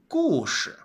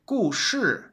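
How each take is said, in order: First: The second syllable is light and unstressed. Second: The second syllable has a sharp falling tone. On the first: The speaker calls it right. "you pronounce it as a neutral tone ... you say 故事 for story" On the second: The speaker calls it wrong. "usually you pronounce it as the fourth tone ... So you don't say 故事"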